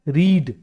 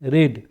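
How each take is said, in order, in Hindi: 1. स्वर एक लंबी 'ee' ध्वनि है। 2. स्वर एक छोटी 'e' ध्वनि है। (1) "वी वन फॉर्म होता है रीड" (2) "लिखा जाता है रीड ही, पढ़ा जाता है रेड"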